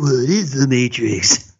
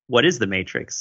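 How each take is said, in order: First: It is said in a put-on voice. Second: It is said in his natural voice.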